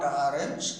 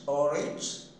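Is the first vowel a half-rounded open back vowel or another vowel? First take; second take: another vowel; half-rounded open. First: The first vowel is not the half-rounded open vowel. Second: The first vowel is open with half-rounded lips. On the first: The speaker calls it wrong. "not orange" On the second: The speaker calls it right. "The lips are half rounded and open"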